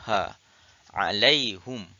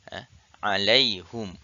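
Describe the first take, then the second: No difference in how they are said.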